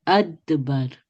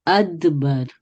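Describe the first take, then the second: The two takes are said the same way.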